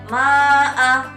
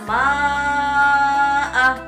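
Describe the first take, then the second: First: The first vowel is held for only two beats. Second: The first vowel is held longer than two beats. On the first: The speaker calls it wrong. "Tidak boleh" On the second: The speaker calls it right. "Panjang bacaannya tidak lagi dua harokat, akan tetapi lebih"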